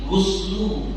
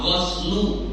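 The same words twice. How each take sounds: First: The first vowel is an 'u' sound. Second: The first vowel is an 'a' sound. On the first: It means bathing. "Kalau mandi" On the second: It means washing. "Kalau membasuh itu ghos pakai fathah"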